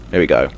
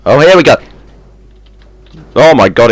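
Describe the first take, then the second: First: Said in the usual way. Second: Loud, high, eager; excited. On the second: Real, not acted. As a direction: cheer it on excitedly. Safe about to fall.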